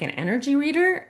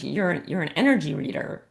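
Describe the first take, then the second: First: "An energy reader?" climbing high on READER as a question; questioning echo. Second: Said in the usual way. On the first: Retold or imitated. Speaker retelling her reply to the woman, "energy reader" as a high, rising, puzzled question. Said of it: "And I'm like". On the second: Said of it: "And she's like".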